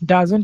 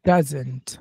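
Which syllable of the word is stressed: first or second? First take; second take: second; first. First: The stress is on the second syllable. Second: The stress is on the first syllable. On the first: The speaker calls it wrong. "এরকম না বলে" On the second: The speaker calls it right. "Data কিন্তু আমরা একটু জুড়ে বলছি"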